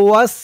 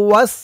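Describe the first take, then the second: Both takes have the same delivery.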